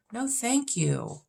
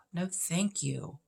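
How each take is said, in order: First: Slow, higher, emphatic refusal; a slow, higher no thank you to rom-coms; drawn-out dismissive no thank you. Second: Said in the usual way. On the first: Real, not acted. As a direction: stretch it out high and turn it down flat. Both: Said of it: "dismissing rom-coms".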